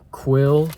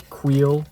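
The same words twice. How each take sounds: First: Said in the usual way. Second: Queel said as kweel, a long ee in place of the short i of Quill; Queel pronunciation. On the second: Shown as a demonstration. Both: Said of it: "He says Queel".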